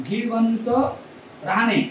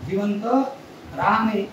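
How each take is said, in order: No difference in how they are said.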